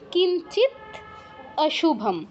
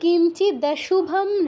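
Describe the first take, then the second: First: The two words are said separately, split apart. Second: The two words run together without a break. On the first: "সন্ধি ভেঙে" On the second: "না থেমে"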